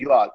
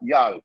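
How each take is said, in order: First: It is said as two separate words. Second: It is said as one contracted syllable. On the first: "So that is you all" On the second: "Y apostrophe A L"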